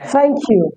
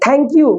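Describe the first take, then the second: First: Thank begins with a soft tongue-teeth hiss. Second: Thank begins with a hard aspirated t stop. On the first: The speaker calls it right. "टंग हमारी touch हो जाएगी और निकलेगा सा सा" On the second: The speaker calls it wrong. "हम जो बोलते हैं थैंक यू, वो थैंक यू नहीं होता"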